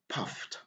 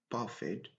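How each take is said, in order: First: The word ends with a t sound. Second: The word does not end with a t sound. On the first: The speaker calls it right. "on est obligé d'utiliser le son T" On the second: The speaker calls it wrong. "On ne doit pas dire"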